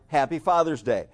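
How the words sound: The stress falls on the word Father's. The holiday itself is what is celebrated. "So the emphasis is on Father's Day"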